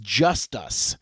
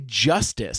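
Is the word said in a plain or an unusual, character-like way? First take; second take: unusual; plain. First: The word is said with an unusual, distinctive inflection. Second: The word is said in an ordinary, plain way. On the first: "he says justice" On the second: "he doesn't say justice"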